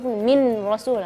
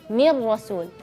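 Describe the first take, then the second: First: A clear, plain n sounds before the r. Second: The n merges into the r, no hum. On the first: The speaker calls it wrong. "mengizharkan huruf min rasul. Nah, itu salah" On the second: The speaker calls it right. "idgham tapi tanpa gunnah ... langsung masuk ke huruf ra"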